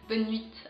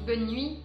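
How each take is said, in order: First: A final t sound is added after nuit. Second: The final t of nuit is silent. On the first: This imitates how a learner says it. "il dit bonne nuit avec un T E. À la fin il, met- il fait te" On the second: This is how people normally say it. "quand on dit bonne nuit"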